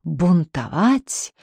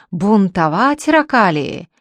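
First: Stretched out, slow, threatening bark; slow barking menace. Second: A louder barked yell, stress on ракалии; barking shout. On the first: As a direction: drohend gedehntes Bellen. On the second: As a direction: bellt laut heraus. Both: Acted. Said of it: "новым лающим голосом закричал".

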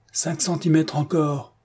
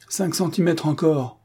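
First: Calling out. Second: Commanding. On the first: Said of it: "cria du bout de la pièce". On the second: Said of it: "commanda le colonel Faki". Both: A narrator's reading.

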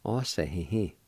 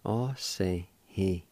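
First: Said in the usual way. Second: Osahihi said slowly, each syllable clear and separate; slow careful pronunciation. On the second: Shown as a demonstration. Teacher modelling the word for meter, slow and careful. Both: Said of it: "is pronounced like this".

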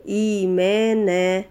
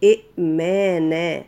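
First: إيمانا slow, with the long ee stretched; drawn-out long ee. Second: إئمانا with a glottal stop before the second hamza; the original two-hamza form. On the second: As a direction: split إئمانا with a clear hamza catch. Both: Shown as a demonstration. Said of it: "أصلها إئمانا".

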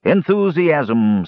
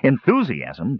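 First: Very slow, drawn-out solemn pronouncement. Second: Questioning echo, quickly said, pitch raised; mildly incredulous question; muttered disbelief. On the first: Dwarf answering the muttering captive, drawn-out and solemn. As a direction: stretch the word out solemnly, pitch raised. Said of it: "said the dwarf solemnly". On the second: Captive querying the dwarf's word, incredulous. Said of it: "Tannen muttered". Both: A narrator's reading.

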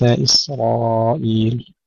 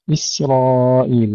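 First: إسرائيل with a heavy, emphatic S like sad; thick S matching the heavy R in إسرائيل; wrongly thickened sin. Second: إسرائيل with a thin, light S; slow إسرائيل, light S before heavy R; light sin. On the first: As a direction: darken the S in إسرائيل toward a sad. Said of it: "وفي مثل هذه الكلمة كثير من الإخوة يفخمونها". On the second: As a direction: keep the sin in إسرائيل unthickened. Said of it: "كثير من الإخوة يفخمونها لمجاورة الراء". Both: Shown as a demonstration.

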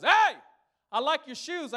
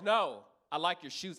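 First: High, loud, overly friendly stranger; mock-cheery hello from the guy with a gun; sing-song fake-friendly compliment; friendly mugger. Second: Deliberate mock threat from the mugger; slow menacing repeat. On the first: Robber voiced, friendly opener. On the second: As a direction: make the compliment a warning.

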